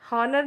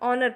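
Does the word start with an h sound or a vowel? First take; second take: h sound; vowel. First: The word starts with an h sound. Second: The word starts with a vowel sound. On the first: The speaker calls it wrong. "हॉनर नहीं पढ़ते" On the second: The speaker calls it right. "ऑनर पढ़ते हैं, S silent होता है"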